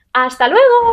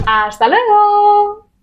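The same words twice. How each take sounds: First: Improvised second farewell, short and bright; quick cheery goodbye. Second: Bright, high, drawn-out farewell; upbeat sign-off, stretched; cheery goodbye. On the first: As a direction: toss off a quick high goodbye. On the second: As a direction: sing out "¡Hasta luego!" high and slow. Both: Real, not acted.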